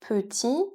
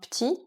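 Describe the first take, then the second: First: The e in the first syllable is pronounced. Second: The e in the first syllable is dropped.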